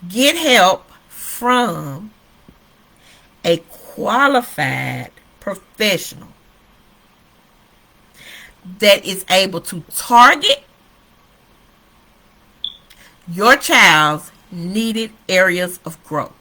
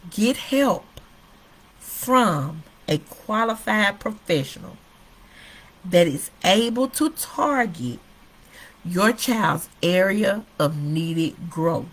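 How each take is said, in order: First: It is said in a loud voice. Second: It is said in a low, quiet voice.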